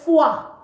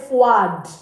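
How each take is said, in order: First: The word ends on the vowel, no d sound. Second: The word ends with an audible d sound. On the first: The speaker calls it right. "You say foi" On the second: The speaker calls it wrong. "And this D at the end is not pronounced. So you don't say froid. No"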